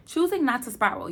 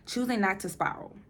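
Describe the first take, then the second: First: Choosing said louder and higher; stress on Choosing. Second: Said in the usual way. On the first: Real, not acted. Vlogger to viewers, Choosing said louder and higher. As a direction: lean hard on Choosing, like a motto. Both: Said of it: "repeated for emphasis".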